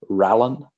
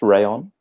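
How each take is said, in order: First: The middle consonant sounds like an L. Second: The middle consonant sounds like a Y. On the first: The speaker calls it wrong. "I was telling everyone I rode an Orbea Rallon" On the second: The speaker calls it right. "it was pronounced Rayon"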